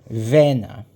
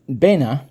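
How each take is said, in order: First: The word begins with a v sound. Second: The word begins with a b sound. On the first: This is the form used in the other dialects. "they would use a V sound" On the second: This is the form used in the speaker's dialect area. "So Bena means lake"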